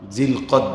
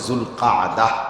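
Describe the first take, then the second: First: The name is pronounced with Bengali sounds. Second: The name is pronounced with Arabic sounds. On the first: "Bangla উচ্চারণে" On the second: "আরবি উচ্চারণে"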